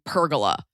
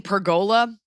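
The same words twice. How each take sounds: First: "pergola" as PER-guh-la; mother-in-law's pronunciation. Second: "pergola?" as per-GO-la, questioning; the other pronunciation. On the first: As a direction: stress the first syllable of "pergola". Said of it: "from my mother-in-law saying pergola". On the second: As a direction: stress the GO in "pergola". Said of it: "You're saying pergola?". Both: Retold or imitated.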